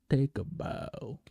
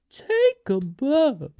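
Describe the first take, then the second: First: Slow and hushed, softer, a grand bow; solemn tribute. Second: Drawn out slowly and pitched much higher; grand tribute. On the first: Crowning Paul Atreides with a slow, hushed tribute. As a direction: lay it down slow and quiet like a ceremony. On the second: Hailing Florence Pugh with a drawn-out, high, grand tribute. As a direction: announce it slowly like a showman's finale. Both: Pretend.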